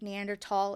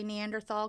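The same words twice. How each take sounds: First: It uses the other, non-American pronunciation. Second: It uses the speaker's usual American pronunciation. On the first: This form may be the correct one. "is also completely acceptable, or it may be the correct way to say it" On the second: This is the form the speaker is used to. "I'm American, so I'm going to say Neanderthal because that's what I'm used to"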